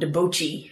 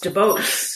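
First: The name ends with an added 'chee' syllable. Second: The name ends without an added 'chee' syllable. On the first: The speaker calls it wrong. "they pronounced it like Chi" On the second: The speaker calls it right. "because it's Deboche"

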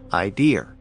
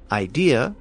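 First: An r sound is added after the final vowel. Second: The word ends in a vowel with no r.

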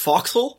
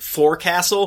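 First: The word is said in a shortened, clipped form. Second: The word is said fully, as it is spelled. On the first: The speaker calls it right. "when it's foxhole" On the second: The speaker calls it wrong. "that time I pronounced it forecastle"

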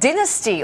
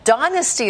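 First: It is said with a non-American pronunciation. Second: It is said with an American pronunciation.

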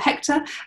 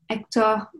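First: The name is said with an English pronunciation. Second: The name is said with a French pronunciation. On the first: "to use the English one" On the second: "with my French pronunciation"

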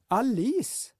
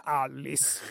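First: The stress is on the second syllable. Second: The stress is on the first syllable. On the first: The speaker calls it right. "andra stavelsen skulle betonas" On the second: The speaker calls it wrong. "inte den första. Inte Alice"

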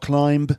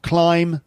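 First: The final b is pronounced. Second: The final b is silent. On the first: The speaker calls it wrong. "not climb" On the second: The speaker calls it right. "But bomb, climb"

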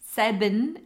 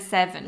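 First: The middle consonant is a b sound. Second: The middle consonant is a v sound. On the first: This is how someone else says it. "she puts a B instead of the V" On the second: This is the usual way to say it. "instead of the V"

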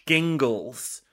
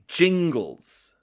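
First: It begins with a hard G sound. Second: It begins with a soft J-like G sound. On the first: The speaker calls it wrong. "a hard G would be" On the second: The speaker calls it right. "begins with a soft G"

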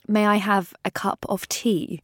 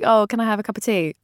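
First: It is said slowly in a posh English accent. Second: It is said quickly in a casual English accent.

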